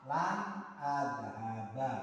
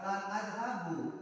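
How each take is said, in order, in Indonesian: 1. Kata kerja itu berakhir dengan vokal 'a'. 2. Kata kerja itu berakhir dengan vokal 'u'. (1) "maka harus dibaca fathah" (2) "Tidak boleh dibaca lan adhabu. Ini salah"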